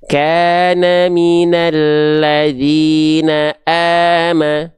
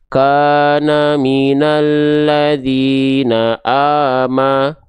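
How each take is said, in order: First: The a-vowels sound thin, with spread lips. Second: The a-vowels sound dark, drifting toward o. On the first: The speaker calls it right. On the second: The speaker calls it wrong. "kalau dia cuma buka mulut, maka bunyinya begini"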